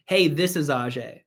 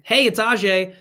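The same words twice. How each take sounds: First: Lower, reserved phone introduction; stranger's introduction. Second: Higher, brisk hello to someone you know; familiar greeting. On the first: Caller saying "this is" as if you don't know each other, distant. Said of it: "sound like we don't know each other". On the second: Caller changing "this is" to "it's", familiar. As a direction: greet them like you already know each other. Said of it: "makes it sound like we do". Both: Shown as a demonstration.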